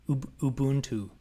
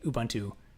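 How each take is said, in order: First: The word is said with native-language sounds. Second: The word is said with English-style sounds. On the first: The speaker calls it right. "it's supposed to be Ubuntu" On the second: The speaker calls it wrong. "I usually just say Ubuntu"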